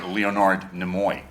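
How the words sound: The name is said the American way. "they definitely say Leonard Nimoy uh, in America"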